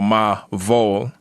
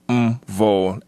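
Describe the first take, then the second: First: A vowel separates the m from the v. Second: The m runs straight into the v. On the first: The speaker calls it wrong. "we separate when we say ... ma vol" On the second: The speaker calls it right. "when it's actually ... m vol"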